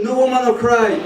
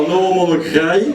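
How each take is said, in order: First: Said in the usual way. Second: Thick mock Carolo accent on English lyrics. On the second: Comic mocks a Carolo singer covering [name], thick Carolo accent. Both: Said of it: "il perd pas son accent".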